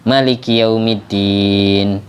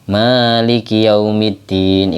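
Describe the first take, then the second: First: The vowel after the m is kept short. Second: The vowel after the m is drawn out long. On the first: This follows another recognized reading and shortens the second rakaat. "mimnya dibaca pendek" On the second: This follows one recognized reading and lengthens the first rakaat. "mimnya Malik dibaca panjang"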